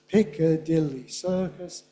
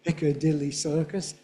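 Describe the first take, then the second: First: The phrase is said slowly and carefully. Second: The phrase is said at a quicker, natural speed.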